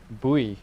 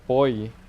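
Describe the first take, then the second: First: The word does not sound like 'boy'. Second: The word sounds almost like 'boy'. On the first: "I will probably keep calling it buoy" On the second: "like almost like boy"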